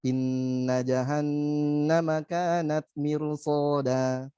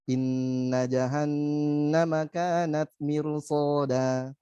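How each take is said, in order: First: The nasal sound is held despite fast reading. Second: The same.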